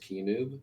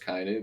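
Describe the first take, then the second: First: The first syllable sounds like 'kee'. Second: The first syllable sounds like 'kai'. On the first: The speaker calls it wrong. "mispronounce Kainub as Keenub" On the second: The speaker calls it right. "he said Kainub"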